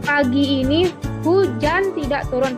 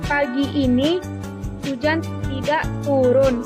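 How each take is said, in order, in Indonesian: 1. Tekanan jatuh pada "hujan". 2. Tekanan jatuh pada "tidak turun". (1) "Penekanan pada kata hujan" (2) "Penekanan pada kata tidak turun"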